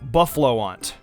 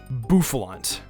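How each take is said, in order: First: The name ends with 'lo-ant', two syllables. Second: The name ends with 'lant', one syllable. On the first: The speaker calls it wrong. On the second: The speaker calls it right.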